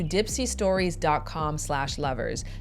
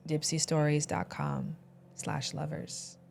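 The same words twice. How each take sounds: First: It is said in a plain voice. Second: It is said in a sultry voice.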